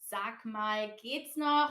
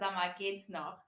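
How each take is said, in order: First: Every syllable of sag mal is said clearly. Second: Sag mal is run together as sama.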